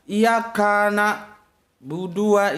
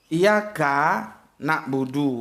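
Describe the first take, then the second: First: The two words run together without a break. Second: There is a clear break between the words. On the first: It sounds like one single word. The speaker calls it wrong. "pemenggalan katanya itu nggak tepat" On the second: They are heard as two separate words. The speaker calls it right. "Padahal ka dan na itu terputus itu"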